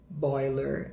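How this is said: It is said in an American English accent. "em inglês americano, bem acaipirado"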